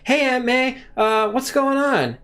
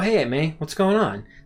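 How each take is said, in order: First: The voice sounds strained, as if exerting effort. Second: The voice sounds relaxed, like normal conversation. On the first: The character is swinging through the air. "he will actually exert force like in his voice when he's swinging" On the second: The character is standing or walking on the ground. "he's just talking normally"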